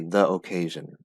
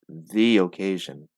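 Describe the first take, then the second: First: The word 'the' is said like 'thuh'. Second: The word 'the' is said like 'thee'. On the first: The speaker calls it wrong. "You don't say the occasion" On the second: The speaker calls it right. "if the word after the has a vowel... then you say the"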